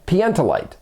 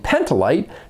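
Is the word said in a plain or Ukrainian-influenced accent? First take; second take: Ukrainian-influenced; plain. First: It is said with a Ukrainian-influenced accent. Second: It is said in a plain English accent. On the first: "Kistakowski's Ukrainian accent led to everybody at Los Alamos" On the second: "instead of saying Pentolite"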